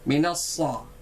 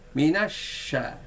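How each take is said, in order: First: The middle consonant is a sharp 's' sound. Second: The middle consonant is a 'sh' sound. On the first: The speaker calls it wrong. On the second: The speaker calls it right.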